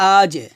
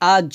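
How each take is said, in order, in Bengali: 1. শেষ ব্যঞ্জনের রেশ নিচের দিকে নামে। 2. শেষ ব্যঞ্জনের রেশ উপরের দিকে ওঠে। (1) "আজে নিচের দিকে নামবে, আওয়াজটা নিচে নামবে" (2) "আ জ হবে না কিন্তু"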